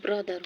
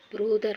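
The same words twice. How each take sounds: First: "ब्रदर" with an open uh vowel; corrected pronunciation. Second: "ब्रदर" with a rounded o, loud; wrong o vowel in "ब्रदर"; mispronounced brother. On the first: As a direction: say "ब्रदर" as bruh-dar. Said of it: "ब्रदर है ना". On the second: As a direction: say "ब्रदर" the wrong way, as bro-dar. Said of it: "ब्रदर पढ़ना". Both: Shown as a demonstration.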